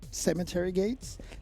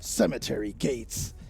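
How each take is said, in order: First: It is said in a plain, normal voice. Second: It is said in a special put-on voice. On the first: The speaker calls it wrong. "You, you gotta do your voice" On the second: The speaker calls it right. "I'm sorry"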